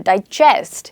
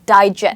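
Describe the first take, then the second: First: The stress is on the second syllable. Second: The stress is on the first syllable. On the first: It is a verb. "I stressed on the second syllable here" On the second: It is a noun. "that is a noun, okay, where we stress on die"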